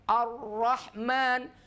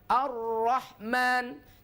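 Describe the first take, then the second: Both takes have the same delivery.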